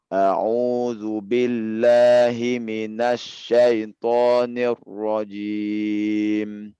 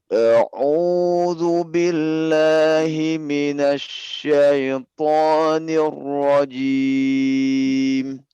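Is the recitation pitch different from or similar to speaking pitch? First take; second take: similar; different. First: It starts at the pitch of his speaking voice. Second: It starts at a pitch unlike his speaking voice. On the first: The speaker calls it right. "nada yang serupa dengan eh, seperti mana kita bicara" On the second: The speaker calls it wrong. "ini memberatkan ya"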